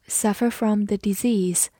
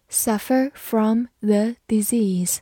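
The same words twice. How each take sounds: First: Said in the usual way. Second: Slow, careful model phrase; slow repeat. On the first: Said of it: "example given then repeated". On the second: Shown as a demonstration. Teacher repeats the phrase slowly for learners, slow and clear. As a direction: say it slowly so students follow. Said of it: "example repeated slowly".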